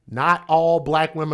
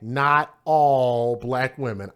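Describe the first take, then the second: First: The phrase is said at a normal pace. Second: The phrase is said slowly and deliberately. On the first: "I'll say it again" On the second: "Let me slow it down"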